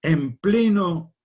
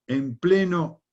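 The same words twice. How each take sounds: The two takes are said the same way.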